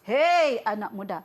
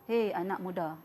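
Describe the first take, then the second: First: It is said in an angry tone. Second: It is said in a calm tone.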